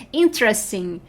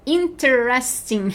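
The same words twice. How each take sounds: First: Said in the usual way. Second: "Interesting" in full, as in-te-res-ting; "Interesting" with the middle te fully said; every syllable sounded. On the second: Shown as a demonstration. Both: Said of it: "Esse é enorme".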